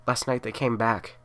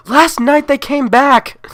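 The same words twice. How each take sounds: First: Said in the usual way. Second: Slow, high, very loud wail; a mother shrieking into the phone; hysterical scream. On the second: Acted. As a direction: scream it at the dispatcher. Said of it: "need you to calm down".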